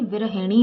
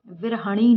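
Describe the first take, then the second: First: विरहिणी as "vi-ra-hi-ni"; correct pronunciation. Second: विरहिणी as "vir-ha-ni"; wrong pronunciation. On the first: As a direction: sound the i after h in विरहिणी. (विरहिणी में "हि" साफ़ बोलें) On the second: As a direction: say विरहिणी with a after h, no i. (विरहिणी में "हि" की जगह "ह" बोलें) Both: Shown as a demonstration. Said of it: "विरहिणी होता है".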